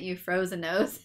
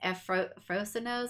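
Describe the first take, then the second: First: The name begins with a 'you' sound. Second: The name begins without a 'you' sound. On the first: The speaker calls it wrong. "She pronounced it Euphrosinos, like you froze your nose" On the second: The speaker calls it right. "But it's Ephrosinos or something like that"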